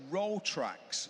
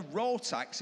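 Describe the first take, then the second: First: Rotrax said slowly with the r, Ro-trax; Rotrax, stressing the tr in the middle; correct name. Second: Rotax said without the r, Ro-tax; Rotax, two syllables, no second r; wrong name. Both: Shown as a demonstration. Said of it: "It's not a Rotax, it's a Rotrax".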